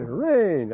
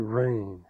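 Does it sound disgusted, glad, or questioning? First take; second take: glad; disgusted. First: It sounds glad and relieved. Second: It sounds disgusted and fed up.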